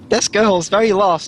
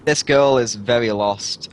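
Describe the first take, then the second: First: It is said in a heavy put-on accent. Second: It is said in a plain, natural voice. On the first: "think heavy southern" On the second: "Do the accent, man"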